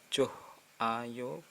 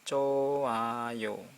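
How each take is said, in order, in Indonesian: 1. Ada bunyi h yang terdengar di tengah. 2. Tidak ada bunyi h yang terdengar di tengah. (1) "bukan joh ayo" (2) "tapi hanya hilang coayo"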